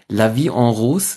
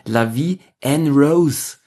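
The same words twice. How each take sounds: First: It is said with a French pronunciation. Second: It is said with an American pronunciation. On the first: The speaker calls it right. "nicht La Vie en Rose singt" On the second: The speaker calls it wrong. "mit einer amerikanischen Denkweise einfach mal gelesen"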